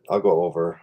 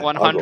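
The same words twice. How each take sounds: First: It sounds hesitant and unsure. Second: It sounds firm and authoritative.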